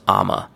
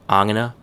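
First: The phrase shrinks to two syllables. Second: The phrase keeps three syllables. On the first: "becomes I'ma"

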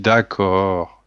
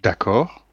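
First: It sounds resigned, as if forced to agree. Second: It sounds questioning, inviting more talk.

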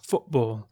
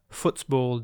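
First: The T is a Cockney glottal stop. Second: The T is fully pronounced.

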